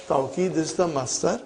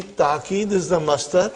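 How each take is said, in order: First: Tawqid said with an "au" glide in the first syllable; tawqid variant. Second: Ta'qid said with a plain "taa" first syllable, no w sound; ta'qid variant. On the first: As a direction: say tawqid as "tau-keed", with the w sound. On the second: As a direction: say ta'qid as "taa-keed", without the w glide. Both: Shown as a demonstration. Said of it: "I have written tawqid and ta'qid".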